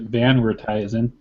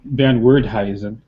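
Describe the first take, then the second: First: The surname is said with an American pronunciation. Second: The surname is said with a Dutch pronunciation. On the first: The speaker calls it wrong. "My parents are so American, they pronounced it Van Werthuyzen, which is completely wrong" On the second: The speaker calls it right. "I think it should be"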